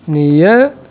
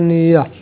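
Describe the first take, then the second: First: The word ends with an 'eh' vowel. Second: The word ends with an 'ah' vowel. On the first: The speaker calls it wrong. "לא אומרים נהיה" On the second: The speaker calls it right. "אלא נהיה"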